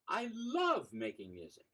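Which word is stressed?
love. The word "love" carries the stress.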